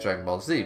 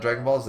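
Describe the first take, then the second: First: The final letter is pronounced zee. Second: The final letter is pronounced zed. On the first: The speaker calls it right. "because that's the name of the show" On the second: The speaker calls it wrong. "It's not"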